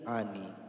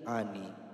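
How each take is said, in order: First: The n sound is short, single. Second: The n sound is short, single.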